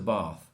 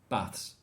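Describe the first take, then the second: First: It is said in a posh English accent. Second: It is said in a northern English accent. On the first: "For posh people, it's a bath" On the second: "for not posh people or people from the north of England, it's baths"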